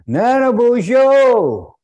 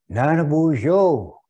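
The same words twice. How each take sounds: First: It is said more loudly. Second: It is said fairly loudly.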